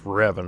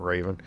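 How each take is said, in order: First: The first syllable sounds like 'rev'. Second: The first syllable sounds like 'ray'. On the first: The speaker calls it right. "It's Revan" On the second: The speaker calls it wrong. "not Raven"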